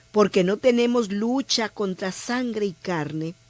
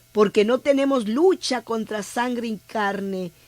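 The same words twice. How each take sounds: No difference in how they are said.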